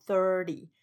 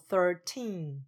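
First: Thirty with a strong, long thir; stress on THIR. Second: Put-on thirteen with the second syllable teen long and falling; stress on TEEN. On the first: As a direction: put the weight on thir in thirty. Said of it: "是把重音放在thir第一个音节". (thirty 把重音放在第一音节 thir) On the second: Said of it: "要把重音放在teen". (thirteen 把重音放在 teen) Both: Shown as a demonstration.

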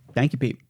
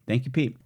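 The two takes are said the same way.

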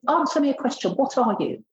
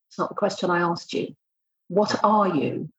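First: Challenging. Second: "What are you?" drawn out slowly, each word weighted; slow insistent question. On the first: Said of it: "I said". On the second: Pressing a candidate who keeps deflecting, slow insistent question. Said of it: "and I go". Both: Retold or imitated.

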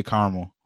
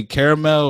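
First: Caramel squeezed to two syllables, CAR-mul; caramel pronounced "CAR-mel"; dropped A. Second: Caramel with all three syllables, CARE-uh-mel; caramel pronounced "CARE-uh-mel"; three-syllable pronunciation. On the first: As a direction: say caramel as "carmel", dropping the middle A. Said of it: "people be dropping that A". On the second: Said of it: "do you say caramel or you say caramel". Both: Shown as a demonstration.

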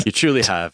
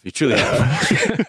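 First: Said in the usual way. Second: Slow, laughing through words. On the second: Real, not acted. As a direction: laugh it out fondly. Repeated, laughing.

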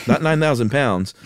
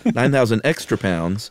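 First: Said in the usual way. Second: Extra stressed, the correction word. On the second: Shown as a demonstration. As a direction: lean on extra to correct yourself.

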